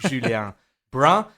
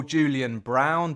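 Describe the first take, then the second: First: Julien Brun said the French way; French pronunciation. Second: Julian Brown said the plain English way; anglicised name. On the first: Host giving guest's official name, French-pronounced "Julien Brun". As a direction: give "Julien Brun" its French vowels and nasal ending. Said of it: "but his name officially is". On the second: Host introducing guest by his nickname, anglicised "Julian Brown". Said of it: "the man that we call". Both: Shown as a demonstration.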